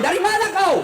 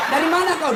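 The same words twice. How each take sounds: First: Higher, pushier demand, half laughing; jealous wife grilling her husband, pushing harder; sharper mock interrogation. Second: Mock interrogation. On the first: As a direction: press the question harder the second time. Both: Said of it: "kau interogasi".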